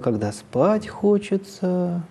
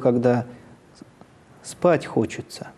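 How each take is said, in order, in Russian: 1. Фраза произносится интенсивной, эмфатической интонацией. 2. Фраза произносится ровной, нейтральной интонацией.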